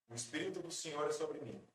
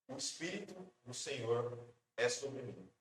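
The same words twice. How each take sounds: First: It is read in a plain, simple way. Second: It is read with marked, emphatic intonation. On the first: An ordinary person is reading the text. "Eu posso ler simplesmente" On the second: The reader speaks the words as his own claim. "ele colocou uma outra entonação"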